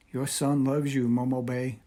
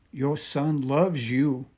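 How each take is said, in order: First: A mild, understated sob, stress on son; a grieving son's lightly voiced farewell; sobbing. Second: Slow, lightly sobbed, stress on loves; sobbing. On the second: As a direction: draw out loves in mild grief. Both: A narrator's reading. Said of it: "he sobbed".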